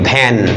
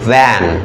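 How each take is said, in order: First: It starts with a Bengali aspirated bh sound. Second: It starts with an English lip-teeth v sound. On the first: The speaker calls it wrong. "মানে আমরা এমনিতে কি বলি ভ্যান" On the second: The speaker calls it right. "এটা না কিন্তু ইংরেজিতে আসলে ভ্যান"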